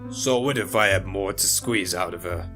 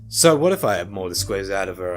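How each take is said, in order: First: It is said in another character's voice. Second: It is said in Malone's own voice.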